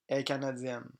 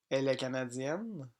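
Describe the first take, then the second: First: The word 'elle' is dropped. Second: The word 'elle' is pronounced. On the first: "Le mot elle n'est pas prononcé" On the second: "Français écrit"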